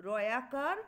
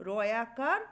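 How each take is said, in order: The two takes are said the same way.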